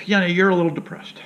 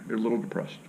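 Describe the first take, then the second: First: Doctor's line said higher, out loud; lightly voiced doctor announcing it; mock doctor, pitched up. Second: Whispered softly under the breath; whispered aside. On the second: Retold or imitated. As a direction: whisper it like a secret diagnosis. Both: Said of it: "What is this, Doc?".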